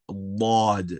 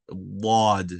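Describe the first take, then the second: First: A heavy, deep consonant from the tongue's side. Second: The same.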